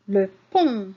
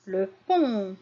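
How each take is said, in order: First: "Le pont" said louder, the t silent; clear model word. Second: Said in the usual way. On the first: Shown as a demonstration. Teacher models the word for pupils, louder. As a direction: say "Le pont" ending on the vowel. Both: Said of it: "Regardez à la fin du mot pont".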